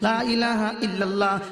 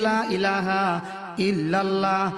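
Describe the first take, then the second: First: It is said quickly and hurriedly. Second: It is said slowly with a delay.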